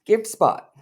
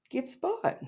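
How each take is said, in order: First: Higher, pushy; mock cow voice. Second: Very high, tiny and soft; squeaky mock cow. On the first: Teasing her cow clip, first take, pushy. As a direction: say it like a plea. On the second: Teasing her cow clip, second take, squeaky high. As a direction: squeak it out with a rising end. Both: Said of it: "you showed, like".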